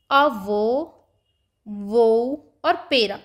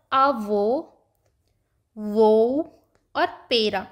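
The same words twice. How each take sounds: The two takes are said the same way.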